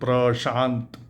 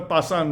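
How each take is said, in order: First: It starts with pr and has sh. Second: It starts with plain p and has s. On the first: Speakers who know the name say it this way. The speaker calls it right. "he will know the uh, pronunciation prashant" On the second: Locals who cannot say the sounds call him this. The speaker calls it wrong. "they could not uh, pronounce uh, pra, pra, sha"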